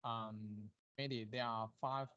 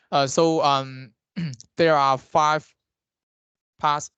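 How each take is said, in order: First: Faint, far from the mic; barely audible voice; too quiet. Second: Closer to the mic, clearly louder; speaking up so he's heard. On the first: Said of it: "your voice is very low". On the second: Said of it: "now it's good". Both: Real, not acted.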